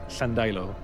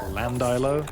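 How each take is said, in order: First: It begins with a breathy, hissing L sound. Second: It begins with an ordinary voiced L sound. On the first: The speaker calls it right. "which was double L, so it's ll. It's a strange kind of lisp sound" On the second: The speaker calls it wrong. "if you ever pronounced it just Landilo, oh boy, you pissed off the natives"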